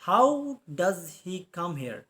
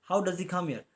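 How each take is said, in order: First: Each word slow and separate, "How" stressed and falling; slow dictation. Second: Said in the usual way. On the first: Shown as a demonstration. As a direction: dictate it slowly so students catch every word.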